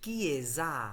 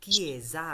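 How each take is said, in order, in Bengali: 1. মাঝের ব্যঞ্জনধ্বনিটি একটি গুঞ্জন-যুক্ত z ধ্বনি। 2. মাঝের ব্যঞ্জনধ্বনিটি একটি গুঞ্জন-যুক্ত z ধ্বনি।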